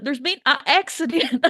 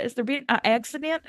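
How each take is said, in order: First: A hint of a put-on Southern accent, slightly higher; mock southern drawl. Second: Lightly put-on Southern accent with a rising question; mock southern drawl. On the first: Podcaster mocks Maggie's southern line, light Southern accent. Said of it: "I did laugh when she's like". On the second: Podcaster repeats Maggie's line, light mock Southern accent. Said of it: "I was like".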